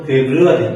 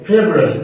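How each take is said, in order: First: "ফেব্রুয়ারি" with every Bangla syllable, feb-ru-a-ri; common wrong pronunciation. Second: "ফেব্রুয়ারি" squeezed short to feb-rari; correct pronunciation. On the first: Teacher quoting what learners usually say, wrong pronunciation. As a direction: spell out all syllables of "ফেব্রুয়ারি". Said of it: "ওই যেটা বলেন". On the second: Teacher correcting learners' February, correct pronunciation. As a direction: shorten the middle of "ফেব্রুয়ারি", English style. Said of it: "ওটা না ভাইয়া". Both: Shown as a demonstration.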